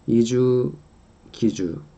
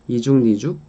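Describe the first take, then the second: First: No n sound is inserted; the k links across. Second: An n sound is inserted before the third syllable. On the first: "or as they are" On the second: "when ni은 is inserted here"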